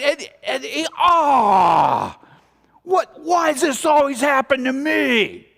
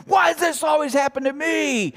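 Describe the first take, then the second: First: Self-pitying wail. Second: Mock the chronic complainer; whiny complainer. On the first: Acted. Slams head in sink. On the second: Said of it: "says that and acts that way".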